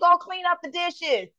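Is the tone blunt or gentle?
blunt. The tone is blunt and demanding. The request is an order regardless of feelings. "you're going to hate it, love it, or leave it. I don't care"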